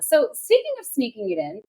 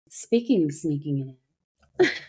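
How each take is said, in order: First: It is said in her normal voice. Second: It is said in a put-on voice.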